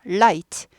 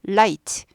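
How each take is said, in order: No difference in how they are said.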